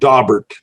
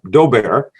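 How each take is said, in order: First: The name is pronounced the anglicized way. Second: The name is pronounced the French way. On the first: The speaker calls it wrong. "in Texas, of course, we corrupted by saying Daubert challenge" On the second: The speaker calls it right. "I took three years of French, so I can pronounce it pretty well"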